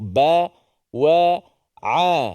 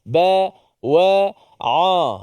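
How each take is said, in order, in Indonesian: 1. Vokalnya tipis dengan mulut terbuka. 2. Vokalnya tebal dan membulat ke arah o. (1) "sama seperti mana kita sebut"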